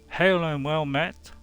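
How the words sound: The voice is pitched at a medium level. "the middle one B"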